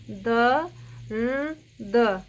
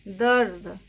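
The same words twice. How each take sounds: First: दर्द stretched very slowly, each sound drawn out; slow spelled-out word. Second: Said in the usual way. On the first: Shown as a demonstration. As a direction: drag दर्द out syllable by syllable. (दर्द को बहुत धीरे खींचकर बोलना) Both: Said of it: "इसकी आवाज़ रेफ की कैसे आती है".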